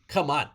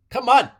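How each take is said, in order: First: Said in the usual way. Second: A burst of loud hype on Come on; excited shout. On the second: Real, not acted. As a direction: Come on yelled much higher and louder. Repeated hype exclamation.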